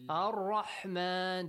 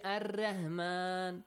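First: The R is pronounced heavy and full. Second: The R is pronounced light and thin. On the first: The speaker calls it right. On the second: The speaker calls it wrong.

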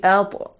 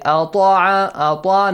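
First: The consonant gets a light, weak bounce. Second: The consonant gets a heavy, strong bounce. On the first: The speaker calls it right. "Just weak one" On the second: The speaker calls it wrong. "You do not say أَطْعَ, no. Do not make it a strong one"

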